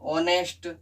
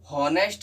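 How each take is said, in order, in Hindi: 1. यह शब्द सीधे स्वर से शुरू होता है। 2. यह शब्द ह की आवाज़ से शुरू होता है। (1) "उसमें ऑनेस्ट आता है" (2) "हॉनेस्ट नहीं पढ़ते"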